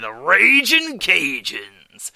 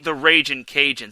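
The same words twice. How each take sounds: First: It is said with strong, energetic emphasis. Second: It is said flatly, with little energy. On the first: The speaker calls it right. "it just brings that emphasis on it" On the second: The speaker calls it wrong. "it sounds so plain"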